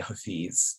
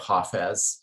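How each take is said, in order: First: The name is pronounced the Urdu way. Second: The name is pronounced the Farsi way. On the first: "In Urdu, which is in South Asia, one would say Hafiz" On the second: "in Farsi, one would say Hafez"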